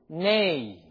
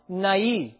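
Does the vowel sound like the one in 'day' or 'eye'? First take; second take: day; eye. First: The vowel sounds like the one in 'day'. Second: The vowel sounds like the one in 'eye'. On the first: The speaker calls it wrong. "So you can pronounce it nay" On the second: The speaker calls it right. "but it should be pronounced nai"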